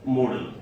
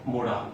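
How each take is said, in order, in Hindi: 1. इसे 'model' की तरह बोला जाता है, दूसरा स्वर छोटा। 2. इसे 'mo-daal' की तरह बोला जाता है, दूसरा स्वर लंबा। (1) "it is called what? मॉडल।" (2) "लोग इसे जनरली मॉडल को मोडाल पढ़ते हैं, बट ये भी गलत है"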